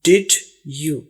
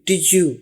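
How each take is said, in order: First: The d and y sounds stay separate. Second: The d and y blend into a j sound. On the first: This is how Indian speakers say it. "हम लोग जब बोलते हैं तो हम कहते हैं" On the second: This is how English speakers say it. "जे की आवाज आती है"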